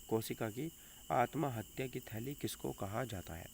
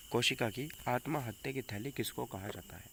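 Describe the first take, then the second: No difference in how they are said.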